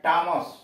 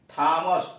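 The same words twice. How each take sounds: First: टॉमस with a hard, unaspirated t; टॉमस opening on ट rather than थ; silent h in टॉमस. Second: थॉमस with an aspirated th; breathy थ opening थॉमस, not ट; h sounded in थॉमस. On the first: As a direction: say टॉमस with plain ट, no h. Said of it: "एच silent है, पढ़ते हैं". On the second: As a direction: puff of air after the t in थॉमस. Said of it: "को एच silent है, पढ़ते हैं टॉमस". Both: Shown as a demonstration.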